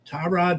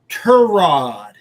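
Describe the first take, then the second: First: The first syllable sounds like 'tie'. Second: The first syllable sounds like 'tuh'. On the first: The speaker calls it wrong. "excuse me" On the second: The speaker calls it right. "his name is Turod, not Tyrod"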